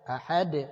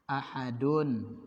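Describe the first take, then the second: First: The word stops on a bare final consonant. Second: The word ends with the full vowel ending. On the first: The reciter is stopping at this word. "kita berhenti kan, makanya dibaca sukun" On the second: This is the word's original case ending. "aslinya berharokat dhamma"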